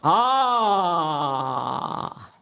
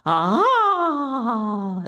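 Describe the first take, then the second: First: A lower, chesty mid-voice sound. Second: A higher sound placed up in the head. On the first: "a very powerful mid-voice thing" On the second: "It's more up here"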